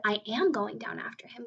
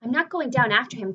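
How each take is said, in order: First: "am" pressed as the correction; stress on am. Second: Misread line. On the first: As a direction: lean on "am" to fix the misread. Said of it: "James cried". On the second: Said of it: "cried James". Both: Acted.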